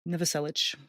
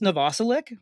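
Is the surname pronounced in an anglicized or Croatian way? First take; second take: Croatian; anglicized. First: The surname is pronounced in a Croatian way. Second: The surname is pronounced in an anglicized way. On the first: The speaker calls it right. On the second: The speaker calls it wrong.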